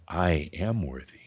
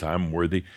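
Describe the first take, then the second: First: Softer, settled, simple statement; calm after a deep breath. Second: Rattled off like a rote mantra; recited mantra. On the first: Teacher showing a calm, simple affirmation after a breath. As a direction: breathe in, then say it plainly and calmly. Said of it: "You just take a deep breath". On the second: Teacher mocking rote mantra recital. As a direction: list it as one more rote mantra. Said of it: "repeat mantras". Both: Shown as a demonstration.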